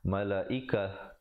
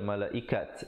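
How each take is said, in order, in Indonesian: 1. Kata ini berakhir dengan bunyi h. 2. Kata ini berakhir dengan bunyi t. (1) "diwaqafkan dengan ta marbutah ... ditukarkan kepada ha"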